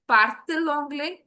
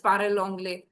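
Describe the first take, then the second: First: Parle anglais said as parle-t-il anglais, a clear t between the vowels; slow, with a crisp t sound bridging parle and anglais; with the linking t. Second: Parle anglais run straight together with no t between; wrong, no t sound. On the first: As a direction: parle anglais with the t, as the correct version. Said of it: "टी इसलिए लगाया है सिर्फ pronunciation clear करने के लिए". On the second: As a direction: say parle anglais with the vowels clashing, no linking t. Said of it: "it doesn't sound nice". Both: Shown as a demonstration.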